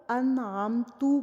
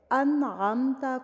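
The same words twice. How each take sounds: First: انعمتو with the final fatha turned into u; wrong vowel demo. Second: انعمتا read slowly with a clear final a; انعمتا, ending on a fatha sound; correct reading. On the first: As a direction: say انعمتو, ending in u, as the mistake. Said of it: "انعمتو پڑھ دینا". (غلط تلفظ انعمتو، زبر کو پیش پڑھنا) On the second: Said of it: "انعمتا کو انعمتو پڑھ دینا". (درست تلفظ انعمتا، آخر میں زبر) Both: Shown as a demonstration.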